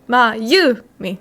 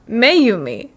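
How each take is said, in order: First: The first syllable sounds like 'ma'. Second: The first syllable sounds like 'may'. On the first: The speaker calls it right. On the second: The speaker calls it wrong.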